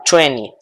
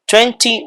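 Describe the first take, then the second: First: "twenty" reduced to "twenny"; twenty without T. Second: "Twenty" with the second t clearly sounded. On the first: Teacher contrasts the two forms, "twenty" as twenny. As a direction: leave out the second t in "twenty". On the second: Teacher contrasts the two forms, "Twenty" with its middle t. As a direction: say "Twenty" as twen-tee. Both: Shown as a demonstration. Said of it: "Cualquiera de las dos pronunciaciones".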